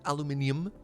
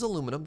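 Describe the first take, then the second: First: The word is said with five syllables. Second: The word is said with four syllables. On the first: "If it was written aluminium, I would be saying that" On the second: "I'm pronouncing it as it's written"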